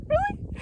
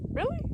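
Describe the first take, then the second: First: Squeaky, very high rising repeat; even more incredulous. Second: Much higher rising question; incredulous. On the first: Hiker repeating her disbelief at the heat, even higher. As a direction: push the disbelief further, higher. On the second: Hiker reacting to thirty degrees in September, incredulous. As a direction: ask it in pure disbelief. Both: Retold or imitated.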